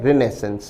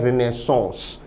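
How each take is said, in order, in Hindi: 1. शब्द का अंत एक छोटी 'sens' ध्वनि से होता है। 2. शब्द का अंत एक नासिक्य 'sons' ध्वनि से होता है। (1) "इस शब्द का ब्रिटिश उच्चारण है" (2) "इसका जो फ्रेंच उच्चारण है"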